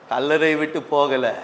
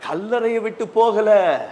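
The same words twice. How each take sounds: First: Said in the usual way. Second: High, drawn-out "கல்லறையை விட்டு போகல"; emphatic declaration. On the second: Acted. Preacher stressing she stayed at the tomb, "கல்லறையை விட்டு போகல" emphatic. Emphatic first take of repeated line.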